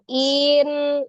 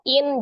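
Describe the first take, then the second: First: The word is swung upward instead of stopping. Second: The word stops short on the final consonant. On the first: The speaker calls it wrong. "jangan in. Biasa kan kita suka naikkan tuh in" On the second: The speaker calls it right. "langsung in"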